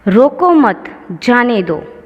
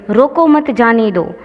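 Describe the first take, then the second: First: The pause comes after the word mat. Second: The pause comes after the word roko.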